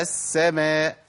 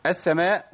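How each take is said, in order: First: السماء slowly with a long, flowing double s; held s in السماء; full shadda. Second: First السماء with a short, lightened s; under-held s in السماء; rushed shadda. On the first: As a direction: let the first sīn of السماء hiss before the vowel. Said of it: "لازم أبين رخاوة السين الساكنة". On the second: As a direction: skim the double sīn of السماء. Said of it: "بيجري عليها وما بيحققش التشديد". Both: Shown as a demonstration.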